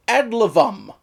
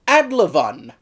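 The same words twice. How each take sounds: First: Adlivum, ending in m; mistaken spelling. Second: Adlivun, ending in n; correct spelling. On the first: Reviewer shows the story's mistaken word, ending in m. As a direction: say Adlivum with a closed final m. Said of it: "instead of". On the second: Reviewer corrects the word from websites, ending in n. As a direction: say Adlivun with a clear final n. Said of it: "it's actually spelled". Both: Shown as a demonstration.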